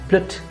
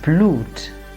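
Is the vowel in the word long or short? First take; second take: short; long. First: The vowel is short. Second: The vowel is long. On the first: The speaker calls it wrong. "and not blut" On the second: The speaker calls it right. "but blute"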